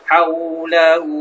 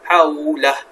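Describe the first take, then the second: First: The word runs on with a lengthened final vowel. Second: The word stops with the final vowel dropped. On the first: The reading continues into the next word. "Wasal ini maksudnya sambung" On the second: The reading stops at this word. "Hujung ni hak dhamir ni dimatikan"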